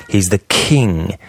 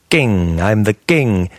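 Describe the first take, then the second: First: KING with a long puff after K. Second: KING with no puff, near "ging"; unpuffed K. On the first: Shown as a demonstration. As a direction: cuff the K in king, slowly. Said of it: "You cuff the K in king". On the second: Retold or imitated. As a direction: say king with an unaspirated K. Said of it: "you sound like Cary Grant or Audrey Hepburn".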